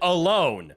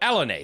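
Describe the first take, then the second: First: It is said like the English word 'alone'. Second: It is said with a French-style ending, 'Alanay'. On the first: "I know you could pronounce it alone" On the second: "they're clearly French"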